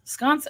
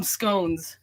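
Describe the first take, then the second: First: Said in the usual way. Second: "scones", long O and final N-Z, for sconce; mistaken pronunciation. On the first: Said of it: "I always call them scones". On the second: Shown as a demonstration. Admitting their usual mistake, mispronounced as "scones". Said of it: "Totally wrong".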